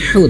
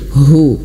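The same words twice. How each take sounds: First: The vowel is said with unrounded lips. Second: The vowel is said with strongly rounded lips. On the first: The speaker calls it wrong. "jangan hu" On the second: The speaker calls it right. "tapi hu ... manyun"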